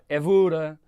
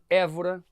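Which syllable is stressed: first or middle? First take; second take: middle; first. First: The stress is on the middle syllable. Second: The stress is on the first syllable. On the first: "com uma passagem musical aqui, isto ia dar Évora. E é notório que Évora é muito esquisito" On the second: "Já se vocês dissessem, por exemplo, Évora"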